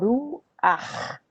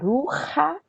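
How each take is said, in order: First: The word ends on a throaty ch consonant. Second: The word ends on a vowel after the h. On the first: The speaker calls it right. "fica ruach" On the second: The speaker calls it wrong. "em vez de ficar ruha"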